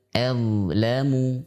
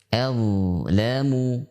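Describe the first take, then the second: Both takes have the same delivery.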